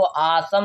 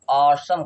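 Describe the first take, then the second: First: आसम with a long AA first; wrong aa version. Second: ऑसम with a rounded AW first; correct aw version. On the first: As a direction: mispronounce it as aa-sum, आसम. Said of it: "इसको आसम नहीं कह रहे". (बड़े आ से गलत "आसम") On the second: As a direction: say ऑसम as AW-sum. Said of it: "हम ऑसम कह रहे हैं". (गोल ऑ से "ऑसम") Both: Shown as a demonstration.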